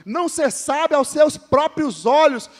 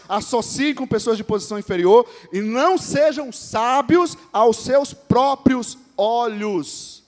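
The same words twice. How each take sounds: First: Slower, louder restatement of the verse; emphatic repeat. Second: Solemn, measured reading of the verse; scripture reading. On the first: Pastor repeating the verse to the church, slow and emphatic. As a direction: drive the verse home. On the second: Pastor reading the verse to the church, solemn and slow. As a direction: read it as holy text, slowing at the end. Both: Acted.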